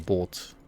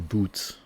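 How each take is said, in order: First: The vowel is a long o sound. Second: The vowel is an oo sound, as in shoe. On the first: The speaker calls it right. "You say boat, right?" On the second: The speaker calls it wrong. "you don't say boot, because that's like shoe"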